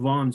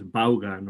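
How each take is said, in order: First: The name is said in its English way. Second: The name is said in a Spanish-style way. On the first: The speaker calls it right. "it's called Vaughan Systems" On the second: The speaker calls it wrong. "Spaniards would pronounce that last name in a different way"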